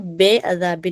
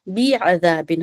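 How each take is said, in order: First: The first vowel sounds like an open 'e'. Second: The first vowel sounds like a thin 'ee'. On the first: The speaker calls it wrong. "बेअज़ाबिन नहीं होगा" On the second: The speaker calls it right. "बी अज़ाबिन होगा"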